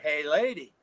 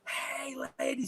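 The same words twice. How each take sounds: First: It is said somewhat louder. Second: It is screamed very loudly. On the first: "a little bit louder" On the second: "scream, so loud the whole room went quiet"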